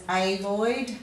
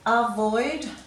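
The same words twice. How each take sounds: First: The first vowel is a full vowel. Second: The first vowel is a weak schwa. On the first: The speaker calls it wrong. "We're not really pronouncing that A as" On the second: The speaker calls it right. "it may be given the schwat sound"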